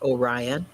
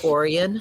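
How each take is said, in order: First: It uses the usual, widely known pronunciation. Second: It uses the local town's own pronunciation. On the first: This is not how the town's name is said. "not Orion" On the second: This is how the town's name is said. "a town named Orion"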